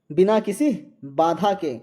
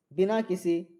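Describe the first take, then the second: First: बिना किसी बाधा के repeated louder, leaning on किसी; emphatic repeat. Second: Said in the usual way. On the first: Shown as a demonstration. Teacher stressing the right answer for students, louder. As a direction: land the answer with weight on किसी.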